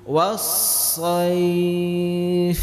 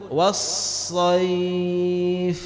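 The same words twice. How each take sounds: Both takes have the same delivery.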